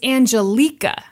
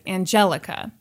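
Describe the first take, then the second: First: The middle of the name does not sound like jelly. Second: The middle of the name sounds like jelly. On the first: The speaker calls it right. "but it's Angelica" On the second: The speaker calls it wrong. "it looks to my eyes like Angelica"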